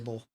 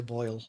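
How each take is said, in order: First: The vowel is flattened toward 'oh', Southern style. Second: The vowel is the standard 'oy' diphthong. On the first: This is how Southern locals say it. "we say bowl" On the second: This is how people outside the South say it. "we don't say boil"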